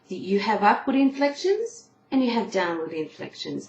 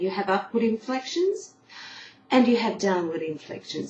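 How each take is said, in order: First: It is said straight through without a pause. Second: A breath is taken in the middle.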